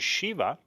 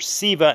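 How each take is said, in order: First: The word begins with a sh sound. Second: The word begins with a plain s sound.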